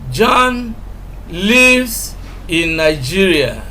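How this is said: The word lives carries the strongest stress. He resides there rather than merely visiting. "we are emphasizing lives"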